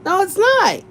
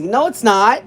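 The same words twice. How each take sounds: First: Much higher, firm "No, it's not."; emphatic denial. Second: Said in the usual way. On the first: Real, not acted. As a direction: jump up high to insist. Repeating her denial.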